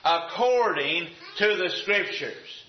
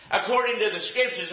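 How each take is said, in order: First: "According to the Scriptures" slow and deliberate; slow emphasis. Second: Said in the usual way. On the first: Real, not acted. Preacher has them watch the key phrase, slow emphasis. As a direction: stretch out each part of "According to the Scriptures".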